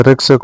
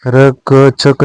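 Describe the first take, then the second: First: रक्षक with a joined ksh; correct cluster. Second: रक्षक broken as "rak-chhak"; wrong cluster. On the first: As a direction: say रक्षक as "rakshak". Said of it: "होता है". (रक्षक में शुद्ध क्ष) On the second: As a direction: put a chh in रक्षक. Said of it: "नहीं होता है". (रक्षक में छ की ध्वनि) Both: Shown as a demonstration.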